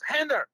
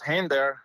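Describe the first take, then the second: First: The name is called in a stern, warning way. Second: The name is called in a friendly, calm way. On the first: The listener is in trouble. "I knew it was uh, I was in trouble" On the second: Something pleasant is coming, like dinner. "I knew that it was for dinner or so"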